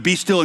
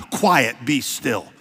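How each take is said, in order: First: Said in the usual way. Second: Slow, deliberate command; calm a rowdy child with each word; Jesus hushing the storm, slow and firm; firm rebuke. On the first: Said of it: "That word "be still". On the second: Acted. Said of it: "rebukes the weather like... a rowdy child".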